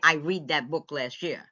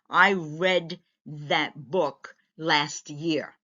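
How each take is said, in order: First: The word read sounds like reed. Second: The word read sounds like red. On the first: The speaker calls it wrong. "You can't say" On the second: The speaker calls it right. "That's how you're going to say it"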